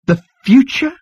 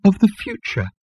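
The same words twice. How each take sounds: First: High, loud incredulous question; high-pitched astonished outburst; exclaimed. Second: High-pitched miserable falling answer; high, woeful elevator. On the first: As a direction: exclaim it in disbelief, rising sharply. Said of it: "exclaimed Zaphod". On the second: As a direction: confess it wretchedly in a high voice. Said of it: "said the elevator miserably". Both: A narrator's reading.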